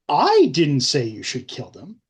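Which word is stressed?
I. The word 'I' is stressed.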